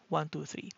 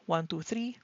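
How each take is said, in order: Both takes have the same delivery.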